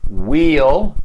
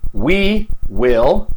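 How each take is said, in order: First: Will is shortened and joined to the pronoun. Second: Will is said as a full separate word.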